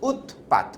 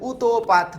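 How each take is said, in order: First: The t sound is closed off. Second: A vowel follows the t sound. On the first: The speaker calls it right. "এটাকে তো আটকে উচ্চারণ করতে হবে" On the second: The speaker calls it wrong. "তুমি চাইলে উতোপাত বলতে পারবা না"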